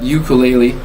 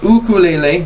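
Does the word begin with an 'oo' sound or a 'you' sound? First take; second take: you; oo. First: The word begins with a 'you' sound. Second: The word begins with a plain 'oo' sound. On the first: The speaker calls it wrong. "not ukulele. U no you" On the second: The speaker calls it right. "Actually, it's ukulele"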